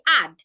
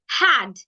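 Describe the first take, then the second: First: The word begins directly with the vowel. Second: The word begins with an added H sound. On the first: The speaker calls it right. "Simply say add" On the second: The speaker calls it wrong. "do not add a H to them. Don't add the H sound to them. Don't say had"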